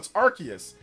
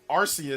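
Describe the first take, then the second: First: The first syllable does not sound like 'arse'. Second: The first syllable sounds like 'arse'. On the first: This is the way some regions say it to avoid a rude word. "in some regions, it's like no, it's Arceus" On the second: This is the American way of saying it. "sounds like like a bad word, like your like your ass or arse"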